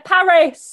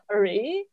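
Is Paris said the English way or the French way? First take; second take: English; French. First: It is said with a British English pronunciation. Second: It is said with a French pronunciation. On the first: The speaker calls it wrong. "us British people pronounce stuff. We're like" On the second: The speaker calls it right. "it's supposed to be pronounced"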